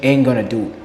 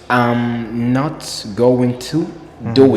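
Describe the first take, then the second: First: The words are contracted and run together. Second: Every word is said fully and separately. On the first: "In America, they say" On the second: "This is full pronunciation because word by word"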